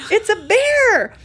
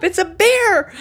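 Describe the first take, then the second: First: High, loud and slowed, stretching "bear"; drawn-out excited shout. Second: High, loud excited cry; excited shout. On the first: Wife repeating the bear sighting to husband, slow loud shout. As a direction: let "It's a bear!" ring out slow and loud. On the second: Wife telling husband she sees a bear, loud excited shout. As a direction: announce the bear at full voice. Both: Retold or imitated.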